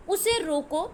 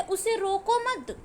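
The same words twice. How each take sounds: First: "उसे रोको" left hanging before the pause; rising "रोको" at the comma; stop after रोको. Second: Slow, stretched "उसे रोको मत" as one phrase; drawn-out "रोको मत", falling at मत; pause after मत. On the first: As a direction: lift the end of रोको, then halt. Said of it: "विराम चिन्ह लगा है तो हमें रुकना है". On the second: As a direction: join मत onto रोको and stop after it. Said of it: "फिर विराम चिन्ह है". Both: Shown as a demonstration.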